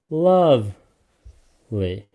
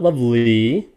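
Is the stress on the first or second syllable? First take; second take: first; second. First: The stress is on the first syllable. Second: The stress is on the second syllable. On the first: The speaker calls it right. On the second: The speaker calls it wrong. "It's not lovely"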